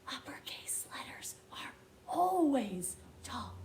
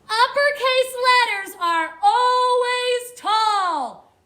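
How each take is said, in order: First: It is spoken in a whisper. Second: It is spoken loudly. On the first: "Whisper it with me" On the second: "I'll say it louder this time"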